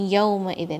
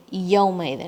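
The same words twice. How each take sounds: The two takes are said the same way.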